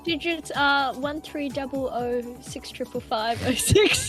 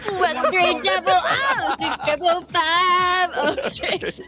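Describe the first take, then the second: First: It is said in his normal voice. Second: It is said in a put-on character voice.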